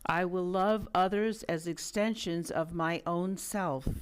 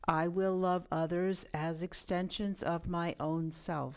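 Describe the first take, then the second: First: It is said loudly with much energy. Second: It is said in a normal speaking voice. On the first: "Let's affirm with much energy" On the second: "And now in a normal speaking voice"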